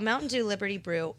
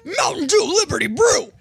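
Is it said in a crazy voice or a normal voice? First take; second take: normal; crazy. First: It is said in a normal speaking voice. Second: It is said in a wild, crazy voice.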